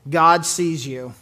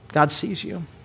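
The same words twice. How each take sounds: First: The voice sounds cold and warning. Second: The voice sounds warm and gentle. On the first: God is watching what you do wrong. The speaker calls it wrong. "creepy, invasive, hurtful, depending on the tone of voice" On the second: You are noticed and you matter. The speaker calls it right. "if you're hurt and alone, isolated, broken"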